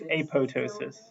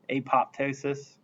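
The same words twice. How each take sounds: First: The second P is left silent. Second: The second P is clearly pronounced. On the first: The speaker calls it right. "you're not supposed to technically pronounce that second P" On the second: The speaker calls it wrong. "everyone says because it's a popping of the cells, they like apoptosis"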